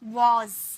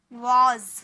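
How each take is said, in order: The two takes are said the same way.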